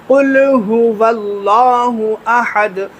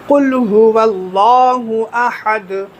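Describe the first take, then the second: No difference in how they are said.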